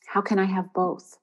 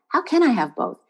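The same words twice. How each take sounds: First: Said in the usual way. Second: CAN lifted high and stressed. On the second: Shown as a demonstration. Coach repeating the question to write down, stress on CAN. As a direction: hit the word can, higher in pitch. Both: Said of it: "With the emphasis on the can".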